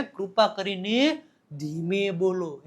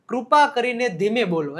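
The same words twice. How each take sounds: First: Slow, softer and stretched out; slow demonstration. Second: Said in the usual way. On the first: Shown as a demonstration. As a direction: draw each word out gently to show slow speech. Slowly demonstrates "speak slowly. (ધીમેથી, લંબાવીને બોલવું)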